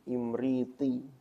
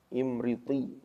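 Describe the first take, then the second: The two takes are said the same way.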